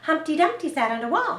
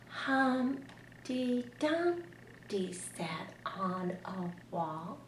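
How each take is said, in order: First: The line is read quickly. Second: The line is read very slowly. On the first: "Or you could read it fast" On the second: "Sometimes you might want to read very slowly"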